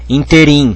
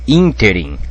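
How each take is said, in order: First: The stress falls on a later syllable. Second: The stress falls on the first syllable. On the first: The speaker calls it wrong. "tem gente que fala interim, né? Mas não é interim" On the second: The speaker calls it right. "é interim. Interim, com acento aqui. É pró-paroxítono"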